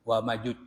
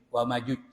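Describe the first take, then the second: Both takes have the same delivery.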